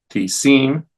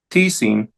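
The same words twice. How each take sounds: First: "tisin" as ti-SIN, going up; stress on last syllable. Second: "tisin" as TI-sin, falling; stress on first syllable. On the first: Teacher showing the accented ending, ti-SIN stressed last. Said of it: "en la última sílaba". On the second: Teacher reciting interrogative forms, TI-sin stressed up front. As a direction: hit the TI of "tisin", let sin drop. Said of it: "la primera sílaba". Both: Shown as a demonstration.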